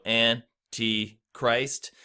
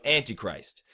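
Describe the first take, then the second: First: "Antichrist" split into three slow, separate beats; syllable by syllable. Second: Said in the usual way. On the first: Shown as a demonstration. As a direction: break "Antichrist" into An, ti, Christ with clear pauses. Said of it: "there are three syllables in the word". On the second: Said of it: "That's how you say it normally".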